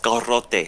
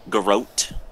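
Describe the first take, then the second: First: The word is pronounced with Spanish sounds. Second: The word is pronounced with English sounds. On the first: "In Spanish, it's garrote" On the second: "if you pronounce that in English"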